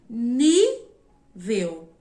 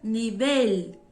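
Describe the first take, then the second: First: The stress is on the first syllable. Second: The stress is on the last syllable. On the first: This is the Portuguese pronunciation. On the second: This is the Spanish pronunciation.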